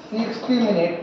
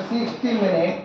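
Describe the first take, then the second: No difference in how they are said.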